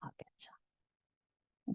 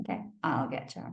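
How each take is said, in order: First: A low whispered threat; menacing whisper. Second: Low, quick, quiet promise; quiet inner vow, pitched low; low muttered vow. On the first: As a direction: breathe the threat, barely voiced. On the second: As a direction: mutter it to yourself, lower. Repeated threat, lower voice. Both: Retold or imitated.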